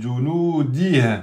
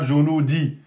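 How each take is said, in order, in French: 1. Il se termine par un son h clairement audible. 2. Il se termine sans son h audible. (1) "On doit bien entendre le ha" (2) "c'est pas junudi"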